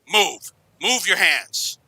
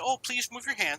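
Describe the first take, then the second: First: It is yelled harshly as an order. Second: It is said gently and politely.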